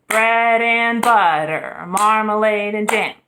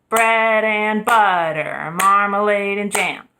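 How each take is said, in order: The two takes are said the same way.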